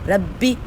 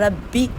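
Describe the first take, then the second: The two takes are said the same way.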